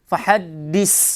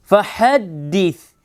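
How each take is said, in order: First: The final consonant is a hissing, whistling s sound. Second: The final consonant is a soft th without whistling. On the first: The speaker calls it wrong. "Fahaddis itu sofir" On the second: The speaker calls it right. "Tidak boleh ada sofir"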